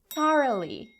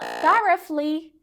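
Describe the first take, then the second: First: Thoroughly with the GH dropped; correct thoroughly, GH silent. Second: GH in thoroughly sounded as F; wrong thoroughly with F. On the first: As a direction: model thoroughly without any F sound. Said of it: "half the letters disappeared completely". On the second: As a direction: mispronounce thoroughly, loud, as "thorefly". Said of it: "it's not thoroughly". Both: Shown as a demonstration.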